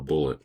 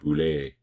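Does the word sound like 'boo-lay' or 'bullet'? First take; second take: bullet; boo-lay. First: It is said like the word bullet. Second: It is said like boo-lay, ending in 'lay'. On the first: The speaker calls it wrong. "if I call it a bullet" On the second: The speaker calls it right. "Gotta make sure I pronounce it correctly"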